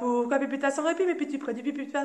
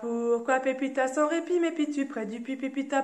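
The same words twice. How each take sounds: First: It is said at a very fast pace. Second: It is said at a slow pace.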